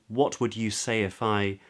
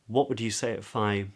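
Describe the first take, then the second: First: The T in 'what' is clearly released. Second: The T in 'what' is a glottal stop. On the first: "So they wouldn't say" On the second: "A lot of people would say"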